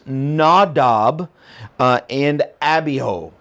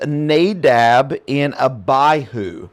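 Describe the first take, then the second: First: The names are pronounced the original Hebrew way. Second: The names are pronounced the usual English way.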